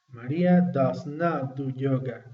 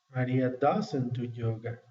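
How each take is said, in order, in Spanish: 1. Does y not se pronuncian como dos palabras separadas. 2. Does y not se unen en una sola palabra contraída. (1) "cuando quieres hacer un poquito más enfático" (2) "la combinación de estas dos palabras"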